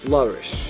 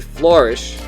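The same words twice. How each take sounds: First: It is said with a Boston accent. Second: It is said with a Midwestern accent. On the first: "Sounds like Boston" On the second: "Many Midwesterners and Northerners who say flourish"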